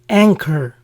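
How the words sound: It is said with an English pronunciation. "the English versions are"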